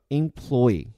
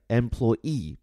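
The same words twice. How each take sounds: First: Employee slowly, stress on the second syllable ploy. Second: Employee mit Betonung auf der letzten Silbe ee; final-stress employee. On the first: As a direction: say employee with weight on ploy, first E as a short E. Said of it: "重音就放到第二个音节ploy，然后前面这个E发的就是E". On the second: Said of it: "重音放在最后一个音节E，然后这个词的首字母E呢，发的是A这个音". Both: Shown as a demonstration.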